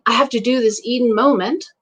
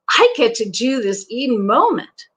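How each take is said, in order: First: It is said in a flat, unexcited tone. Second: It is said with excitement in the voice.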